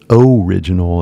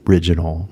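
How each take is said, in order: First: The first vowel is a full 'oh' sound. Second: The first vowel is a short reduced sound. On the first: The speaker calls it wrong. "it's not original" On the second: The speaker calls it right. "it's original"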